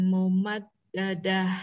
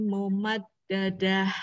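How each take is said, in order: Both takes have the same delivery.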